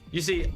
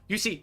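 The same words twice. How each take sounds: First: It is said in his normal voice. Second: It is said in a put-on nerd voice.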